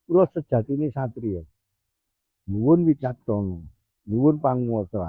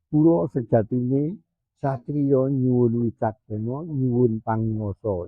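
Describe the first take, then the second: First: It is broken by a pause after satriya. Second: It is said as one unbroken phrase.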